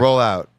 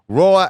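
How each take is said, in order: First: It is said quietly and flatly. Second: It is said louder than before.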